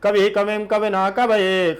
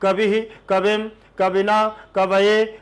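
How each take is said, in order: First: It is recited at quadruple speed. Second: It is recited slowly. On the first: "चौगुन में लेना है" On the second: "पहले धीरे से पढ़ना है"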